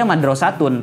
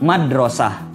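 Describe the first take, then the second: First: The word ends with a t and -un. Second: The word ends with an h sound. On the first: The word is read on without stopping. "ketika kita baca dia madrasatun" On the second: The word is read with a stop at the end. "ketika kita wakofkan madrasah"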